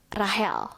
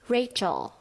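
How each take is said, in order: First: The name is said like 'RAH-hel'. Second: The name is said like 'RAY-chel'. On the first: The speaker calls it wrong. "salah pelafalan" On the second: The speaker calls it right. "Seharusnya Rachel"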